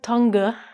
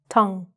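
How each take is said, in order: First: Extra vowel sounds are said after the 'ng'. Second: The word ends on 'ng' with no extra vowels. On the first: The speaker calls it wrong. "it looks like tongue" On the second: The speaker calls it right. "it's actually just tongue"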